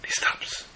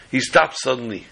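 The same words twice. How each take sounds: First: Hushed suspense whisper; whispering the pause before the reveal. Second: Said in the usual way. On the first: A narrator's reading. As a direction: drop to a breath for the dramatic pause.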